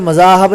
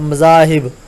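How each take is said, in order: First: The vowel after the h is 'a'. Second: The vowel after the h is 'i'. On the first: The speaker calls it wrong. "मज़ाहब नहीं पढ़ना" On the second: The speaker calls it right. "हे के नीचे ज़ेर है"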